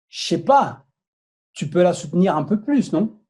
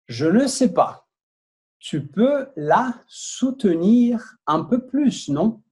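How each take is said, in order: First: The sentence is read at a faster pace. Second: The sentence is read at a slow pace. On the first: "Vou falar um pouquinho mais rápido agora" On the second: "Eu vou ler devagar primeiro"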